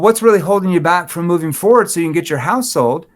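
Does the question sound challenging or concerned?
challenging. The question is asked in a challenging, pushy tone. The asker is pressuring the listener. The speaker calls it wrong. "They're going to get defensive"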